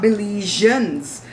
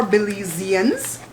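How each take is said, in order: First: "Belizeans" with zh, bih-LEE-zhuns; slow "Belizeans" squeezed to three syllables; mispronounced Belizeans. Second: "Belizeans" with a z, bih-LEE-zee-uns; slow, four-syllable "Belizeans"; correct Belizeans. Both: Shown as a demonstration. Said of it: "not Belizeans".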